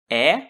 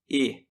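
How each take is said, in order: First: The vowel is pronounced open, with the mouth wider. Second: The vowel is pronounced closed, with the mouth narrower. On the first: "o epsilon pode ser aberto ou fechado" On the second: "o epsilon pode ser aberto ou fechado"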